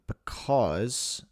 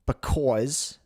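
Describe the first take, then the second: First: Said in the usual way. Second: "because" with a rounded New Jersey "aw"; New Jersey accent. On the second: Shown as a demonstration. Host retrying the word, New Jersey accent.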